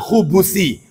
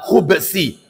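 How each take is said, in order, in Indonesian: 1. Terdengar vokal u di antara b dan s. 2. Bunyi b langsung diikuti bunyi s. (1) "khubusi berarti didhamma" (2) "Sebaiknya baknya disukun, dimatikan, tidak didhamma"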